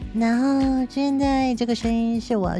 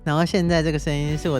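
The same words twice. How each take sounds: First: It is said in a put-on female voice. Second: It is said in the speaker's natural voice. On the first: "学了三十天后得到的一个女生声音" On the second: "现在这个声音是我的本音"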